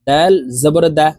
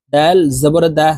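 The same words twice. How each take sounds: The two takes are said the same way.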